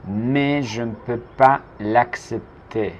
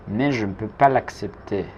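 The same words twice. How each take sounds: First: Slow and deliberate; slow model. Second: Said in the usual way. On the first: Shown as a demonstration. Teacher modelling the sentence slowly for the class. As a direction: say it slowly for learners to copy. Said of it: "teacher models slowly then repeats". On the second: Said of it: "teacher repeats".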